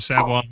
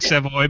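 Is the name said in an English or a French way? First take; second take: French; English. First: The name is said the French way. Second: The name is read the plain English way. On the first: The speaker calls it right. "but it's pronounced Savoy" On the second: The speaker calls it wrong. "It looks like Savoy"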